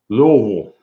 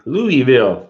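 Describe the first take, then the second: First: It is mumbled, the way locals say it. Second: It is said clearly, the way outsiders say it.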